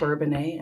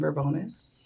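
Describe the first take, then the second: First: The name ends with an 'ay' sound. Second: The name ends with an 'us' sound. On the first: The speaker calls it right. "it is Bourbonnais" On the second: The speaker calls it wrong. "someone mispronounces it"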